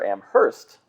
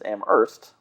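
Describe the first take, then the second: First: The H sound is clearly pronounced. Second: The H sound is left out. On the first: It is a town outside Massachusetts. "Amherst with a pronounced H" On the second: It is the town in Massachusetts. "Amherst with a silent H"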